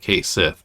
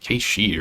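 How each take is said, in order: First: The name ends with a 'sith' sound. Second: The name ends with a 'shee' sound. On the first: This is how people commonly said it back then. "at the time everybody just said Kate Sith" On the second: This is the supposedly correct pronunciation. "I think it's pronounced something like"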